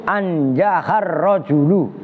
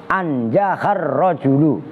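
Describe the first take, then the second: Both takes have the same delivery.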